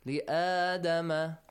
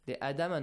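First: The alif vowel is held for two counts. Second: The alif vowel is cut short. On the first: The speaker calls it right. "Two counts" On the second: The speaker calls it wrong. "Sometimes we forget that alif"

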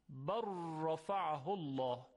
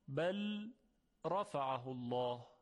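First: The L merges fully into a doubled R. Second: The L sound is heard before the R.

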